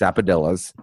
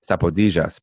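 First: The name is said with an English pronunciation. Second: The name is said with a Spanish pronunciation. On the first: The speaker calls it right. "It's Sapodillas" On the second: The speaker calls it wrong.

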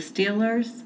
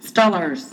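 First: The vowel is a standard long 'ee' sound. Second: The vowel is a short local Pittsburgh sound.

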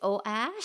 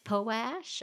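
First: The P and T sounds are dropped. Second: The T sound is dropped from the word. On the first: "Is the P silent?" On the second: "a silent T and it's poash"

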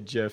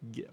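First: The word begins with a soft J sound. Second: The word begins with a hard G sound. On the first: The speaker calls it wrong. "You don't say GIF, do you? Those people are terrible" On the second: The speaker calls it right. "so that's a hard G. So you should say GIF"

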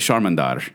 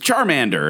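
First: It is said with a Portuguese accent. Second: It is said with an American English accent.

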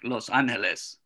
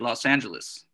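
First: It is said with the original, non-American pronunciation. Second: It is said with an American pronunciation. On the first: "the actual pronunciation really, I guess, would be like" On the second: "the American pronunciation would be"

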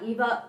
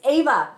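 First: The name begins with an 'ee' vowel. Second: The name begins with an 'ah' vowel. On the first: The speaker calls it wrong. "I said it wrong already" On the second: The speaker calls it right. "It's Ava"

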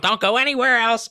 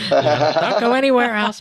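First: It is said in the speaker's ordinary accent. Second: It is said in a Peruvian accent.

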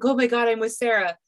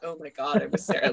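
First: It sounds happy and delighted. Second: It sounds dismayed and unhappy.

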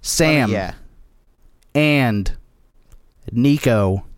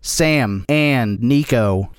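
First: The three words are separated by gaps. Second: The three words follow each other without gaps. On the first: "you have to say it as three separate words" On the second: "you gotta cut out the space in the middle"

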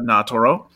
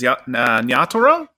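First: The opening Y sound is light and soft. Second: The opening Y sound is strong and hard. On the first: The speaker calls it right. "It's more of a very soft Y" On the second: The speaker calls it wrong. "I'm pronouncing the Y way too hard on that"

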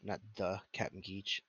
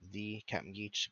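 First: The word 'the' is said with a short 'thuh'. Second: The word 'the' is said with a long 'thee'. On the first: The speaker calls it wrong. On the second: The speaker calls it right. "get it right. THEE"

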